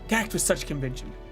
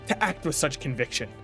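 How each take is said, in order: First: The word conviction is slurred together. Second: The word conviction is articulated clearly. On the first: The speaker calls it wrong. "I kind of slurred the letters" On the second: The speaker calls it right. "Let me re-say conviction"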